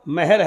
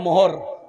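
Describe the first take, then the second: First: The first vowel sounds like 'e'. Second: The first vowel sounds like 'o'. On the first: The speaker calls it right. "सही लफ्ज मेहर" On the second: The speaker calls it wrong. "आप लोग क्या बोलते हैं, मोहर"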